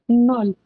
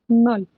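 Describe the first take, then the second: The two takes are said the same way.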